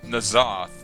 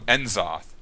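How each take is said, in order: First: The name begins with a 'na' syllable. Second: The name begins with an 'en' syllable. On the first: This is the pronunciation used on the streams. "They pronounced it Nazoth at um, at their streams" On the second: This is the pronunciation used in the game. "in World of Warcraft, ... they call it um, Enzoth, not Nazoth"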